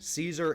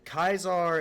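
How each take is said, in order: First: The name begins with a soft S sound. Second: The name begins with a hard K sound. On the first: The speaker calls it right. "is actually the proper pronunciation" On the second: The speaker calls it wrong. "That that's not actually true"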